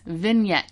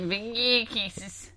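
First: The g is silent in the word. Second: The g is sounded in the word. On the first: The speaker calls it right. "ignore the G. ... You just say vignettes" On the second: The speaker calls it wrong. "You're like vignettes"

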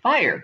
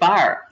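First: It is said with a California accent. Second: It is said with a Pittsburgh accent.

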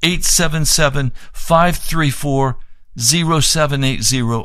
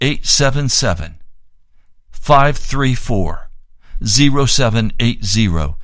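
First: The number is said at normal speed. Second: The number is said slowly.

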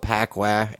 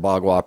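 First: The name starts with a p sound. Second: The name starts with a b sound. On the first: The speaker calls it wrong. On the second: The speaker calls it right.

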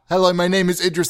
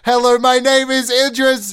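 First: It is spoken at a raised, medium volume. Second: It is spoken at a very loud, shouted volume. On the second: "Louder! ... The audio peaks"

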